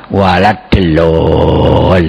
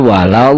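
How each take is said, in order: First: "walad delolin" with a heavy local L and long drawn vowel; misread Quranic word. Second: "walawwallin" with a long held middle vowel; correct recitation. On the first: Acted. Debater warns how readers of Latin script may misread, drawn-out mispronunciation of "delolin". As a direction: stretch out a botched "delolin". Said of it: "nanti ada orang membaca Al-Quran bisa juga".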